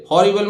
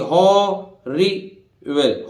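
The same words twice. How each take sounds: First: Said in the usual way. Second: हॉरिबल stretched out very slowly, syllable by syllable. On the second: Shown as a demonstration. Teacher to students, हॉरिबल drawn out slowly syllable by syllable. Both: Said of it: "अक्षरों को तोड़ तोड़ के पढ़िए".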